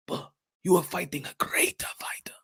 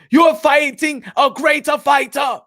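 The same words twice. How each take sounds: First: Urgent hushed whisper, no voice at all. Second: Shout. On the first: Hyping a fighter before his big chance, in a whisper. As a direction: lean in and whisper it like a secret tip. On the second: Hyping a fighter before his big chance, shouting. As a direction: pump him up, shout it out. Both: Acted.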